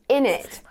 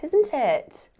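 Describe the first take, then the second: First: The words are squeezed together into a shortened form. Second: Both words are said fully with the t sounds.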